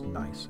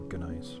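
First: The word is pronounced exactly like 'nice'. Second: The word is pronounced differently from 'nice'. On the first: The speaker calls it right. "I know it's nice" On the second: The speaker calls it wrong. "I like to mispronounce things for fun"

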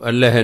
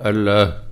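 First: It is said allh, with no vowel before h. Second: It is said allah, with a long a. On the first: The speaker calls it wrong. "ਇਹਨੂੰ ਅੱਲ੍ਹ ਨਹੀਂ ਪੜ੍ਹਨਾ" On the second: The speaker calls it right. "ਇਹਦਾ ਉਚਾਰਨ ਹੈ ਅੱਲਾਹ"

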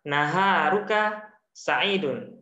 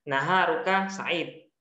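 First: The last word ends with a full -un syllable. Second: The last word ends on a bare consonant.

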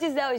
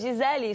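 First: The name is said with American pronunciation. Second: The name is said with non-American pronunciation. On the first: The speaker calls it wrong. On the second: The speaker calls it right.

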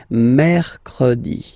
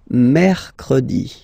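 No difference in how they are said.

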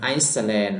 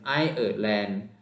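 First: The first part sounds like 'ice' before 'land'. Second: The first part sounds like 'eye-er' before 'land'. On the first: The speaker calls it wrong. "บางคนก็จะอ่านออกเสียงไอซ์แลนด์" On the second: The speaker calls it right. "เขาต้องอ่านออกเสียงไอเออร์แลนด์"

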